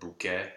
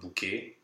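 First: The final vowel is an open E. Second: The final vowel is a closed E. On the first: The speaker calls it right. "go for an open E" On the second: The speaker calls it wrong. "It's not bouquet"

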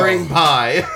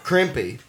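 First: It is said as two words, cream pie. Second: It is said as one word, crim-pee. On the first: The speaker calls it right. "I found out that that's bukkake and cream pie" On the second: The speaker calls it wrong. "for years I pronounced them buck cake and crimpy"

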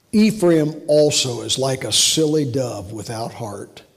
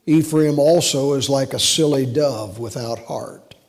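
The two takes are said the same way.

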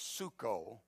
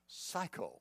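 First: It is said with an oo vowel, suko. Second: It sounds like the English word psycho. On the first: "the actual pronunciation is suko" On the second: "but for our illustration tonight"

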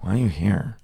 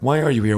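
First: It is asked in a sarcastic, snooty tone. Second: It is asked in a curious, interested tone. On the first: The asker looks down on the person's presence. "like not like a sarcastic or snooty way" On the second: The asker genuinely wants to know the reason. "it was a lot of time a genuine interest"

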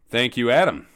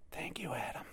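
First: It is said loudly, yelled. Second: It is said more quietly.

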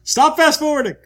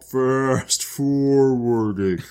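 First: It is said at normal speed. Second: It is said very slowly.

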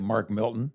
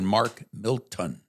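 First: The name is slurred, with sounds run together. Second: The name is said carefully, each sound clear. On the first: The speaker calls it wrong. "I didn't say Mark Milton" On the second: The speaker calls it right. "I enunciated"

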